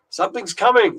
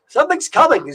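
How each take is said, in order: First: It is read in the speaker's ordinary accent. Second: It is read in a put-on Irish accent. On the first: The speaker calls it wrong. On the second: The speaker calls it right.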